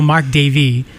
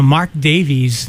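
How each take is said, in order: First: "Davey" said as DAY-vee, with no final s; corrected name. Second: "Davies" said as DAY-veez, with a final s; mispronounced name. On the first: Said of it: "Yeah, Mar-, well". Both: Real, not acted.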